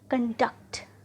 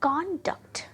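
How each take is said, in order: First: The stress is on the second syllable. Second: The stress is on the first syllable. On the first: The word is used as a verb. "Word form में रखते हैं" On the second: The word is used as a noun. "जब हमने noun में use किया"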